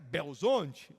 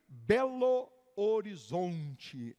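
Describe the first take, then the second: First: The name is squeezed into a short, reduced form. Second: The name is said in full, every syllable clear. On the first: The speaker is a local from Minas Gerais. "para quem é mineiro é Belzonte" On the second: The speaker is not from the region. "Para quem não é daqui"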